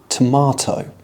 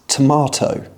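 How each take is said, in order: First: It is said with a British accent. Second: It is said with a British accent.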